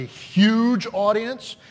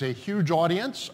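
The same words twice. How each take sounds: First: "huge" drawn out and punched louder; stress on huge. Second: Said in the usual way. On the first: Real, not acted. Pastor talking up the viewers at home, stress on "huge". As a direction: lean hard on the word "huge". Repeats it with more emphasis.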